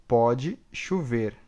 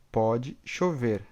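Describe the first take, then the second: No difference in how they are said.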